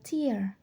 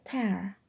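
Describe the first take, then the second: First: It is said as the word for eye-water. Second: It is said as the word for ripping. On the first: It means a drop from the eye. "Kalau untuk yang air mata" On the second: It means to rip something. "tapi kalau untuk yang merobek"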